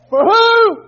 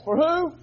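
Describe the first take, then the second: First: Much higher and louder, belted; shouted question. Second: Said in the usual way. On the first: Acted. Preacher demanding an answer from the church, loud high shout. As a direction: throw the question at them full volume.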